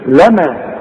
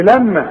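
First: لما with a single light meem; correct single lama. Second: لما with a stressed doubled meem; mock wrong لما; wrong doubled lamma. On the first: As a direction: say لما with a short plain meem. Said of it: "إنما دي لما". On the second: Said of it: "اوعى تقول لي لما". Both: Shown as a demonstration.

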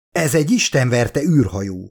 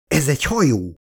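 First: A slightly louder stunned mutter, "istenverte" leaned on. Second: Mild surprised exclamation, "hajó" stressed and falling; exclaimed. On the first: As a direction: swear it half to yourself, a touch louder, stressing "istenverte". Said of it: "motyogta hangosabban a kapitány". (hangosabb motyogás, az "istenverte" szóra hangsúllyal) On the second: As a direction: realise it and call it out, a touch of shock on "hajó". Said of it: "kiáltott fel". (meglepett felkiáltás, a "hajó" szó kiemelve, enyhén) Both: A narrator's reading.

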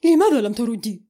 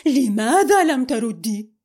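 First: Sharp, loud demand; angry. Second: Loud, pressing repeat; angry. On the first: Fiancé demanding why she ignored his call, angry. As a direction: snap the question at her. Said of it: "فقال بعصبية". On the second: Fiancé repeating his demand to Amal, angry. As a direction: hammer the same question harder. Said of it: "قال بعصبية". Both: A narrator's reading.

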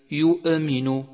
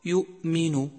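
First: يؤمن with the hamza pressed so it bounces; bouncing hamza. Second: يؤمن with a clean hamza, no bounce; correct hamza. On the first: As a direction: make the hamza in يؤمن echo like qalqala. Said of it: "فتصبح كأنها مقلقلة". (همزة مقلقلة خطأ في يؤمن) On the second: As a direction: keep the hamza in يؤمن light and steady. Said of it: "والصواب". (نطق يؤمن الصحيح بلا قلقلة) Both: Shown as a demonstration.

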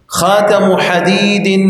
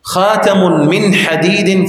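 First: "خاتم" slow and higher, ending in -u; plain annexation. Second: "من" inserted, phrase very slow; implied min voiced. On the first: Teacher giving the example, slow higher "خاتم" with bare final -u. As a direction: draw out "خاتم" straight into "حديد". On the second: Teacher spelling out the implied meaning, slowly adding "من". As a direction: stretch "خاتم", then sound "من". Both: Shown as a demonstration. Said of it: "في تقدير من".

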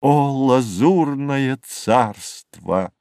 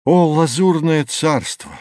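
First: Very slow, drawn-out sigh of wonder; lingering exclamation. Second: Higher, ringing call of wonder; rapturous exclamation. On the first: Narrator takes leave of the azure kingdom, lingering. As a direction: draw each word out, savouring it. Closing refrain of the recited poem. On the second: Narrator hails the azure kingdom, rapturous. Exclamation opening the recited prose poem. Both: A narrator's reading.

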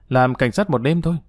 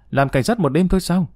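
First: Said in the usual way. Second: Higher-pitched, uncomprehending question; puzzled echo. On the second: A narrator's reading. Tâm repeats Xong's words without understanding, puzzled echo. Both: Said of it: "Tâm không hiểu, lặp lại lời Xong".

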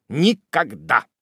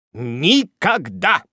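First: Raised, firm refusal; kneeling Tupman refusing to rise, firm; chivalrous reply. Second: Higher, louder, slow and drawn-out; kneeling Tupman swearing devotion, emphatic; chivalrous vow. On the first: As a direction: refuse gallantly. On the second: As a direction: vow it with grand gallantry. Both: A narrator's reading. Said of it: "был рыцарский ответ".

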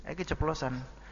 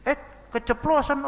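First: Said in the usual way. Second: Put-on much higher, louder kid's voice; a child catching himself too late; child blurting out. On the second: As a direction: act a little kid who let it slip.

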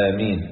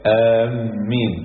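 First: آمين with a single light m; light mim. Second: آمين said slowly with the m doubled and held; doubled mim. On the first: Teacher giving students the correct light-m آمين. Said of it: "الميم خفيفة". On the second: Teacher showing students the wrong doubled-m آمين, slowly. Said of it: "ولا يجوز تشديد الميم". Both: Shown as a demonstration.

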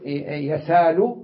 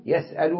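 First: يسال drawn out as yasaal, no glottal stop; softened hamza, slowly. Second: يسأل with a clear glottal stop; hamza pronounced. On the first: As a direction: stretch the long a in يسال. (يسال بتسهيل الهمزة وببطء) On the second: (يسأل بتحقيق الهمزة) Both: Shown as a demonstration. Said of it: "يسهل يقول".

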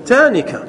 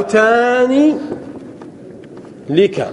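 First: "تانك" said as one word, taanika, without an l; correct feminine dual. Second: "تاني لك" stretched as taaanii, pause, then lika; forbidden form with lam. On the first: Teacher giving the allowed feminine form, joined up. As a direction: say "تانك" joined, long aa then nika. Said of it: "نقول". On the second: Teacher showing the forbidden feminine dual, slow and split. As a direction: draw out "تاني", then set "لك" apart. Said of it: "ممتنع". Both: Shown as a demonstration.

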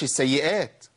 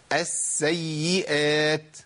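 First: السيئات quick, with barely held s and y; lightened doubling. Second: السيئات very slow, holding double s and double y; drawn-out s and y in السيئات; four full letters. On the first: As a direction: skim over the doubled letters of السيئات. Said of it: "ما أقولش". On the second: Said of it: "أربع حروف". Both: Shown as a demonstration.

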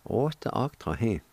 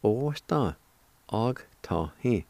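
First: Said in the usual way. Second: Osta og ta hi in slow chunks; slow joined pronunciation. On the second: Shown as a demonstration. Teacher putting the parts together, slow and measured. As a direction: join osta, then og ta hi, unhurried. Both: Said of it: "And together".

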